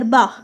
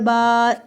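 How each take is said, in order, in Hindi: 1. स्वर छोटा और झटके से कटा हुआ है। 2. स्वर को लंबा खींचा गया है। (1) "बा ज़बर बा" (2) "इतना जब लंबा हम इसको करते हैं"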